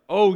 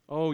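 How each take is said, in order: First: The line sounds harsh and scolding. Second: The line sounds gentle and compassionate. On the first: The speaker is rebuking in anger. The speaker calls it wrong. "don't, I think, read this like" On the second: The speaker is caring for a friend. The speaker calls it right. "With compassion, he speaks to Peter"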